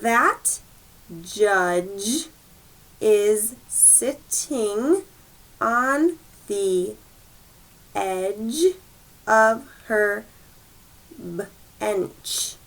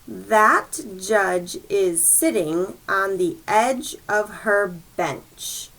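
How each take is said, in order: First: The sentence is read at a slow pace. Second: The sentence is read at a quicker pace. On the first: "Now that was kind of slow" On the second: "Let's go a little bit quicker now"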